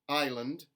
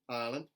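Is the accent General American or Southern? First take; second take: General American; Southern. First: It has a full gliding 'eye' vowel. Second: It has a flatter, 'ah'-like vowel. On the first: "General American I" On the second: "the intermediate A for contemporary Southern"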